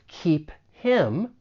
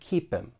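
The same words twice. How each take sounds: First: The h sound of 'him' is pronounced. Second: The h is dropped and the words link. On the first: "Instead of keep him" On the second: "that H gets muted, it's going to sound like keep him"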